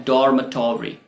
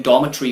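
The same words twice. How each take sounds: First: "डॉर्मेटरी" with r, "DOR-muh-tor-ee"; US pronunciation. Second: "डॉर्मेटरी" with no r, "DAW-muh-tree"; UK pronunciation. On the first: Teacher giving the US example, American pronunciation. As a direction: pronounce the r and full "-tory" in "डॉर्मेटरी". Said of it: "US English में ये होता है". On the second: Teacher giving the UK example, British pronunciation. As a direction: drop the r and shorten "डॉर्मेटरी" to end "-tree". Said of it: "UK English में डॉर्मेटरी होता है". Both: Shown as a demonstration.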